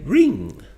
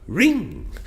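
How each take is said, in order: First: The voice rises on the word. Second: The same.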